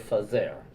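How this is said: It is said Salonika style, with an f.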